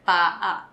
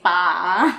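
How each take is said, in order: First: The two vowels are said as separate sounds. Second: The two vowels blend into one sound. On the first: The speaker calls it right. "We say pa" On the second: The speaker calls it wrong. "don't blend. We don't say pa"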